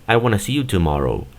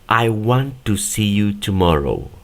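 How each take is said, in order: First: 'Want to' is run together as 'wanna'. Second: Each word is said separately and slowly. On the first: "cuando ellos lo hacen de manera natural, el want to lo pronuncian como wanna" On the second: "Esta es la pronunciación palabra por palabra y de forma lenta"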